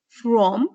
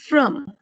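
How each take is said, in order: First: From with full O vowel, rising; strong form. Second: From reduced to "frum"; weak form. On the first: Teacher citing the word before weakening, strong from. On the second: Teacher showing students the result, weakened from. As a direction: say from with a short uh vowel. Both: Shown as a demonstration. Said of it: "is weakened to the".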